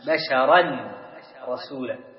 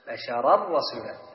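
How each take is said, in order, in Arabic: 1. تُنطق النون قبل الراء. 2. النون مدغمة تماماً في الراء. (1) "أصلها ماذا؟" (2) "ذهب الحرف وذهبت صفته"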